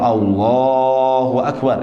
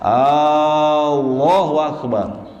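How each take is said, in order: First: The opening A sound is kept short. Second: The opening A sound is drawn out long. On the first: It is a statement. The speaker calls it right. "itu boleh" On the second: It turns the phrase into a question. The speaker calls it wrong. "A-nya yang kepanjangan"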